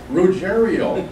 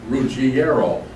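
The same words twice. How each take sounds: First: The name is said with anglicized pronunciation. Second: The name is said with Italian pronunciation. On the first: This is how the family itself says the name. "the Ruggiero family doesn't know that. And for years, they pronounced it Ruggiero" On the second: This is the proper pronunciation of the name. "You're even Italian. I'm ashamed of you. You should know it's pronounced Ruggiero"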